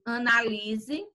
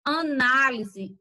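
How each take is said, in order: First: Analise, slow, with LI drawn out; stress on LI. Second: Análise, slow, with a strong NÁ; stress on NÁ. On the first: Teacher contrasts accented words, stressing LI in analise. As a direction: slowly lean on LI in analise. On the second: Teacher contrasts accented words, stressing NÁ in Análise. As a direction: slowly hit NÁ in Análise. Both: Shown as a demonstration. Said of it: "é o acento".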